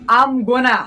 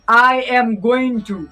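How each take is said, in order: First: The words are run together and reduced. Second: Each word is said separately and fully. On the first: The speaker calls it right. "आपको बोलना है" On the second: The speaker calls it wrong. "आपको ऐसा नहीं कहना कि"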